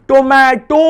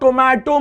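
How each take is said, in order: First: The 'o' sound is stretched out and emphasized. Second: The word is said plainly, with no stretched vowel. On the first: The speaker calls it right. "ऐसे बोलो tomato" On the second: The speaker calls it wrong. "Tomato मत बोलो"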